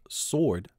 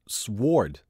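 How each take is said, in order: First: The word is said without a W sound. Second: The word is said with a W sound.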